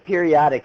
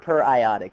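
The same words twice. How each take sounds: First: It begins with 'peer-ee', as in periodic table. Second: It begins with 'per-eye', as in per-iodine. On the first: The speaker calls it wrong. "It looks like periodic acid" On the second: The speaker calls it right. "per periodic is how you pronounce it"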